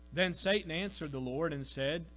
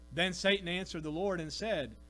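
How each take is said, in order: The two takes are said the same way.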